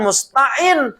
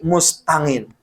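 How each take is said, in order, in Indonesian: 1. Konsonan tengah itu bunyi tenggorokan. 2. Konsonan tengah itu bunyi ng. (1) "bukan musta'in" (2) "Karena letah orang Jawa ain itu ngain"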